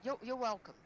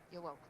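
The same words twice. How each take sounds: First: Blurted out louder and higher; eager you're welcome. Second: Said in the usual way. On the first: Shown as a demonstration. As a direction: hurry to say it right. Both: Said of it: "Just say, 'You're welcome.'".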